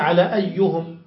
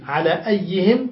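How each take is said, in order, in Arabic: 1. تُنطق الكلمة بحركة u: ayyuhum. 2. تُنطق الكلمة بحركة i: ayyihim. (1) "روي بالضم أيضا" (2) "بالكسر"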